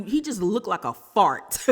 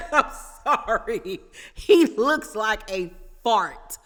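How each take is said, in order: First: Said in the usual way. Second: Giggling through the insult; laughing, louder and slower. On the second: Real, not acted. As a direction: repeat it slowly while still laughing.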